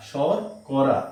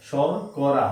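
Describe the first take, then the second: No difference in how they are said.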